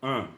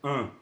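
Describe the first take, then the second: No difference in how they are said.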